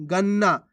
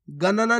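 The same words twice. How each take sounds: First: गन्ना as gan-naa; half-letter pronunciation. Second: गणना as ga-na-naa; full-letter misreading. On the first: Teacher answers how to read it, गन्ना with half न. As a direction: hold the doubled न in गन्ना. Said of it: "कैसे पढ़ेंगे". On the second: Teacher warns learners, गणना in three syllables. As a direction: sound each n fully in गणना. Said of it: "नहीं पढ़ना आपको". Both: Shown as a demonstration.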